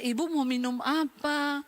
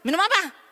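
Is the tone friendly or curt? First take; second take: friendly; curt. First: It is asked in a friendly, smiling tone. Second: It is asked in a curt, unfriendly tone.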